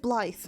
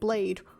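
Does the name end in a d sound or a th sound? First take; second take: th sound; d sound. First: The name ends with a th sound. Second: The name ends with a d sound. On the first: The speaker calls it right. "that is Blythe" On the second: The speaker calls it wrong. "It's not, it's not Blade"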